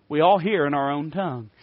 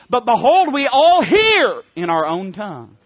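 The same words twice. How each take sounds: First: Said in the usual way. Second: Loud, slow, stressed reading of the verse; preacher proclaims the Bible verse to the church, slow and loud; emphatic scripture reading. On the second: Acted. Preacher booms out Acts to his congregation, slow and emphatic.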